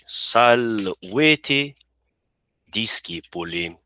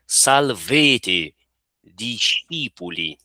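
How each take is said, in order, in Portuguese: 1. Usa a pronúncia clássica reconstruída do latim. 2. Usa a pronúncia eclesiástica romana do latim. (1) "É a pronúncia reconstituída que nós estamos utilizando" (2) "se fosse a pronúncia romana ou eclesiástica, seria"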